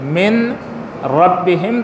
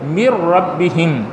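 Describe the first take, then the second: First: The n sound is heard before the r. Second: The n sound merges into the following r. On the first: This is how the word is written. "मिन रब्बिहिम था" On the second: This is how the word is recited. "जिसको क्या पढ़ा जाता है"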